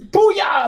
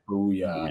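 First: It is said with excited, hyped energy. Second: It is said flat and unenthusiastic.

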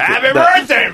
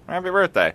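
First: It is said loudly, with lots of energy. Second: It is said quietly, without much energy. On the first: It is an unusually enthusiastic birthday greeting. "he said it so loud that I heard it from in there" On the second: It is an ordinary, routine birthday greeting. "Usually for birthdays, he's like"

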